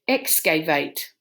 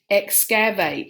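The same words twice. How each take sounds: First: The second vowel is a long A sound. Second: The second vowel is a short A sound. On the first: "the long open syllable, long A, did not work" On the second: "excavate if it was short"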